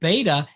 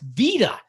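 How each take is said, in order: First: It begins with a B sound, ending 'bayta'. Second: It begins with a V sound, ending 'veeta'. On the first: This is how English speakers and math circles say it. "to a native Greek speaker isn't beta" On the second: This is how native Greek speakers say it. "it's vita"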